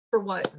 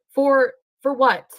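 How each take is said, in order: First: Said in the usual way. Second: Louder, slow stress on For; emphatic repeat. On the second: Real, not acted. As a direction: lean hard on For, slowly.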